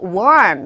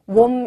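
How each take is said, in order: First: The word is said slowly and clearly. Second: The word is said quickly and glided over. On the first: This would be easy to catch. "warm 이렇게 주면은 굉장히 쉽게 들리겠지만" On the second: This is how it sounds in the real audio. "warm 이렇게 지나가죠"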